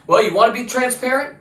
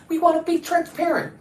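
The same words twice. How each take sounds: First: Raised-pitch challenge thrown back; challenging retort. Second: High-pitched mock of officials; mocking imitation. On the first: Acted. Answering officials who promised transparency, challenging rising question. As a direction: turn their promise into a pointed question. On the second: Imitating officials who kept promising transparency, mocking high voice. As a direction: parrot their promise in a put-on high voice. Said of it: "That's what they kept saying".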